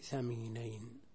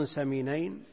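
First: ثمينين begun with TH as in "think". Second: سمينين begun with a clear S sound. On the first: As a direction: say ثمينين with tongue-tip TH, not S. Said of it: "بالمثلثة". (ثمينين بالثاء المثلثة) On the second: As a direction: say سمينين with an initial hissed S, not TH. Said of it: "بالمثلثة بدل السين". (سمينين بالسين) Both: Shown as a demonstration.

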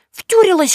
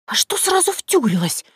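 First: "Втюрилась" sung out high and loud, falling; "Втюрилась" as a mocking accusation, pitched way up; teasing. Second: High, defensive "сразу" stressed; embarrassed girl pushing back on "втюрилась"; flustered denial. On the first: Yaga mocks Vasilisa's crush: "Втюрилась" high, loud, falling. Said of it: "Яга погрозила ей пальцем". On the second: Acted. Vasilisa, blushing, protests the word in a high flustered voice. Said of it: "Василиса покраснела, пряча глаза".

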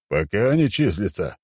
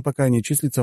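First: Stern ruler querying "Пока не числится", stressed on "не"; weighty, questioning repeat of "Пока не числится"; emperor's questioning echo. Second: Said in the usual way. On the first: A narrator's reading. Emperor echoes hero's words back.

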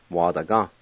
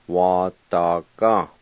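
First: Said in the usual way. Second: "Wa da ga" said slowly, each syllable clear; slow model word. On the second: Shown as a demonstration. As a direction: draw out "Wa da ga" for learners. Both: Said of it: "I'll go back and pronounce them".

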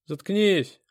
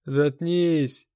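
First: Loud, high, abrupt order; cutting someone off. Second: Loud, drawn-out order from frayed nerves; different, nervous voice. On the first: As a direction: cut the victim off sharply. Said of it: "оборвал меня бык". (резко обрывая) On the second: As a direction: repeat the order as your nerves give out. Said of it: "но уже другим голосом". (громко, на сдающих нервах) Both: A narrator's reading.

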